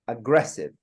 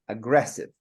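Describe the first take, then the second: First: The stress is on the second syllable. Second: The same.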